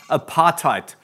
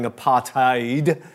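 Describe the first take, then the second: First: The final consonant is pronounced as a t. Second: The final consonant is pronounced as a d. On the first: "I pronounce it in that way because we have a lot of Afrikaans people" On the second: "I'm always used to saying apartheid"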